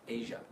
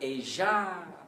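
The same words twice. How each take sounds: First: The final vowel is a short, weak schwa. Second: The final vowel is full and long. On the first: The speaker calls it right. "the ending sound is a schwa. It's just little" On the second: The speaker calls it wrong. "It's not Asia"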